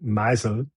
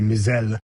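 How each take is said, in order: First: "Meisel" as MY-zel; German pronunciation. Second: "Mizell" as mee-ZELL; French pronunciation. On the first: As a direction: stress the long i at the start of "Meisel". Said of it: "German would be Meisel". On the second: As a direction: stress the final syllable of "Mizell". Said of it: "French would be Mizell". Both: Shown as a demonstration.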